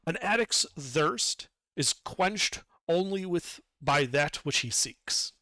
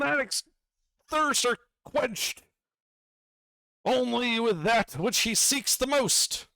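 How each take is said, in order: First: It is said in an ordinary speaking voice. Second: It is said in a put-on character voice. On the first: The narrator is repeating it plainly. "I'll speak to it in a normal voice then" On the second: A magical gem is speaking. "the voice of the gem"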